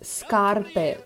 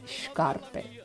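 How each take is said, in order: First: It is said with a standard Italian pronunciation. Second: It is said with a Neapolitan dialect pronunciation. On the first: "когда итальянец говорит" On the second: "неаполитанец говорит"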